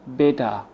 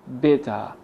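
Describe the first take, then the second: The two takes are said the same way.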